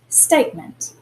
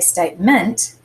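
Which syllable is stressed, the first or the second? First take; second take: first; second. First: The stress is on the first syllable. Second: The stress is on the second syllable. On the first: The speaker calls it right. "We actually accent the state bit" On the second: The speaker calls it wrong. "we don't say statement"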